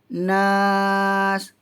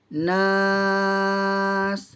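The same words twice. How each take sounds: First: The vowel is held for four beats. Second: The vowel is held for six beats. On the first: "Kalau empat harakat" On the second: "Kalau enam harakat"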